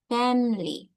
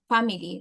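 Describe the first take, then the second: First: The middle vowel is dropped, giving two syllables. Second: The middle vowel is pronounced, giving three syllables. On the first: The speaker calls it right. "But it's family. Okay? The, the I doesn't sound" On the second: The speaker calls it wrong. "we always thought that we say like family"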